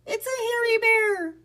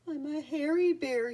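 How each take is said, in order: First: Very high, loud frightened cry; panicked alarm. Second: Understated sob, higher-pitched storybook voice; a sad bear's mild, mock sob; sobbing. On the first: Rat Pack suddenly seeing Boris, panicked alarm. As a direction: cry out in storybook terror. Rats panic at sight of bear. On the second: Lonely bear Boris to himself, mildly sobbing. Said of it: "he sobbed". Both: A narrator's reading.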